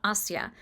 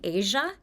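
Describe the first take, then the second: First: "Asya" said AH-see-ya, three syllables; "Asya" with a clear AH and see-ya ending; the proper "Asya", AH-see-ya; correct name. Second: "Asia" said like the continent, AY-zha; mispronounced as "Asia", the continent; the interviewer's "Asia", two syllables AY-zha; wrong name. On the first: Shown as a demonstration. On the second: Retold or imitated. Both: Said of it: "not Asya".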